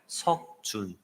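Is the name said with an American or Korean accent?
Korean. The name is said with a Korean accent.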